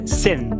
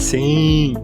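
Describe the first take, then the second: First: The vowel is oral and ends in clear n. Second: The vowel is nasalized with no clear final n. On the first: The speaker calls it right. "a pronúncia é sen" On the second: The speaker calls it wrong. "O brasileiro quer falar sim"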